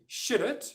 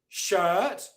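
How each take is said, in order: First: An R sound is pronounced after the vowel. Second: No R sound is pronounced after the vowel. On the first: The speaker calls it wrong. "which is incorrect" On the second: The speaker calls it right. "which is correct"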